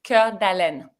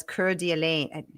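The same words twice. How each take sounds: First: "Coeur d'Alene" run as cur-da-len, short open ending; French pronunciation. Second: "Coeur d'Alene" ending in a long "lane"; mispronounced place name. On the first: Guest shows host how to say it, French "Coeur d'Alene" ending in "len". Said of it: "I'm saying in the French way". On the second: Host owns up to saying it wrong, anglicized "Coeur d'Alene" ending in "lane". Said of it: "I've probably been saying it wrong". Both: Shown as a demonstration.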